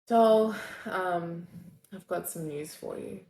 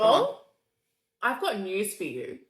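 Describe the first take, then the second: First: It sounds disappointed. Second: It sounds angry.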